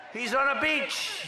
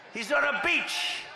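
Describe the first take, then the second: First: Higher and slower, mocking; mocking repeat. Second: Laughing mockery. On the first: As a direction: drag out the mockery, higher and slower. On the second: Mocking Biden on beach. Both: Real, not acted.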